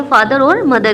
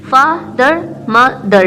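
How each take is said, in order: First: Said in the usual way. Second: father and मदर each broken into two beats; split into syllables. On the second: Shown as a demonstration. Teacher sounding out two syllables, father and मदर split by pauses. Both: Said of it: "ये आ जाएंगे टू syllables में".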